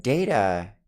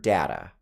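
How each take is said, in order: First: "data" as DAY-tuh; "data" like the Star Trek name, DAY-tuh; character-name pronunciation. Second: "data" as DAT-uh, A as in dad; "data" rhyming its first syllable with cat; own pronunciation. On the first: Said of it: "I would call it data referring to that character". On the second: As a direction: say "data" with a short A. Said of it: "I call the word data". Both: Shown as a demonstration.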